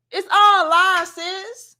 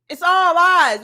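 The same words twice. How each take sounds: First: Slow drawn out. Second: Loud emphatic. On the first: Repeating it to Bella. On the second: Calling the claims lies. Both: Real, not acted.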